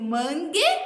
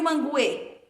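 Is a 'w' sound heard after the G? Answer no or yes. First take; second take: no; yes. First: The G is followed directly by the vowel. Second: A 'w' sound follows the G. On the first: The speaker calls it right. "Eu digo mangue" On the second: The speaker calls it wrong. "ou eu digo manguê? Não pronuncio"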